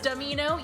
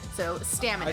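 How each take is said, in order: First: The name is said to echo the word amino. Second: The name is said to echo the word stamina. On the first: "like amino acid" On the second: "like stamina but with an O instead of"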